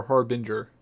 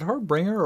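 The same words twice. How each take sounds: First: "Harbinger" said as HAR-bin-jer; "Harbinger" with no second r, ending "-binjer"; soft-g pronunciation. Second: "Harbinger" said as har-BRING-er; "Harbinger" ending like "bringer", hard g or plain ng; alternative pronunciation. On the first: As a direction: say "Harbinger" with a j sound in "-ger". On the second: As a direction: say "Harbinger" with an extra r and a ringing "-bringer". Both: Shown as a demonstration. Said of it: "Is it Harbinger or Harbinger?".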